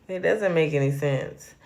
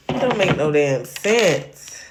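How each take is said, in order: First: Said in the usual way. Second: Sassy slang. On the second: Shown as a demonstration.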